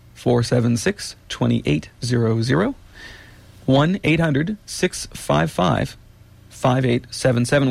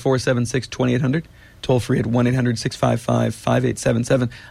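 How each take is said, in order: First: The number is read slowly and carefully. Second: The number is read at normal speed.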